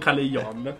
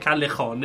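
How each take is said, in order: First: The j is a soft, non-throaty sound. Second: The j is a rough, throaty h sound. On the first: The speaker calls it wrong. "e non Callejon" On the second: The speaker calls it right. "in Spagna si dice Callejon"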